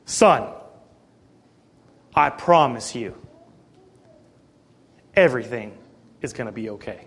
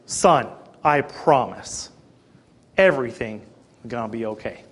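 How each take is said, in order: First: Father quietly calming his son; calm reassurance. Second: Repeating comfort to a worried son; calm reassurance. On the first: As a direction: soothe him, sinking quieter to a hush. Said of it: "in a very calm voice". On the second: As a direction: promise it gently, trailing off. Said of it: "I made a special point to say again". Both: Retold or imitated.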